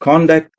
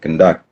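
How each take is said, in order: First: The stress is on the first syllable. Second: The stress is on the second syllable. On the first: It is the noun. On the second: It is the verb.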